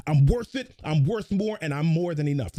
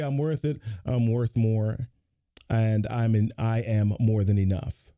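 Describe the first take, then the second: First: Pumped-up affirmation; energized. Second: Lower, listless, no conviction; deflated demo of a weak affirmation; low-energy. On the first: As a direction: put your whole body into it. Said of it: "get your physiology into it". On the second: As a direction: say it like you don't believe it. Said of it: "If I say it like that". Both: Shown as a demonstration.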